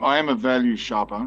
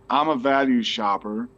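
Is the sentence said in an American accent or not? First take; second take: not American; American. First: It is said without an American accent. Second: It is said in an American accent.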